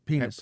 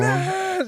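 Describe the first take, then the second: First: The word is said fairly quietly. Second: The word is said very loudly.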